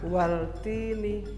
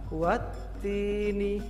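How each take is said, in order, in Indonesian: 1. Huruf l dibaca jelas sebelum t. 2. Huruf l tidak dibaca, langsung masuk ke t yang ganda. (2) "alif lamnya tidak dibaca dan membacanya langsung masuk ke huruf ta"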